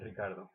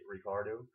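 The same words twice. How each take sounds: First: The name is said without an American accent. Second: The name is said with an American accent.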